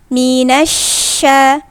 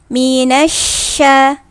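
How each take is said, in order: The two takes are said the same way.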